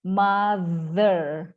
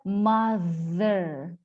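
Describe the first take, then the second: Both takes have the same delivery.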